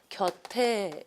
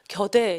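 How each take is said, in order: First: The final t carries over aspirated into the ending. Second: The final becomes a plain d before the ending. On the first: The speaker calls it right. "받침을 연음시켜줘서 곁에 이렇게 가죠" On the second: The speaker calls it wrong. "대표문으로 해가지고 겨대 이렇게 발음하는 사람 전혀 없어요"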